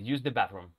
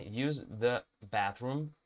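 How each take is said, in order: First: Said in the usual way. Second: Slow model. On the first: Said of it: "vamos a dejar las dos opciones". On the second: Shown as a demonstration. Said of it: "Sería la versión formal".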